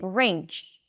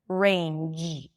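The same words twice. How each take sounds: First: The word ends in a voiceless ch sound. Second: The word ends in a voiced j sound. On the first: The speaker calls it wrong. "substituting the j at the end in range to a ch sound" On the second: The speaker calls it right. "You want to feel your vocal cords vibrating at the end"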